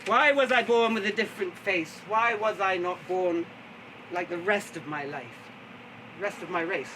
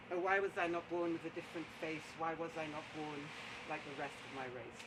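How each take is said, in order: First: Strong opening, slowing into a lament; declaimed lament. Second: Very soft, low recitation; hushed lament. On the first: Storyteller voicing the poet's lament, declaimed. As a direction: declaim it like verse to the house. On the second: Storyteller redoing the poet's lament after a slip, hushed and low. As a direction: let it sink down almost to nothing. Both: Acted.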